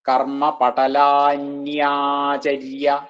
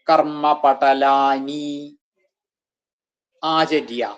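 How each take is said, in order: First: Patalani and acharya merge into one word, patalanyacharya. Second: The words patalani and acharya are said separately.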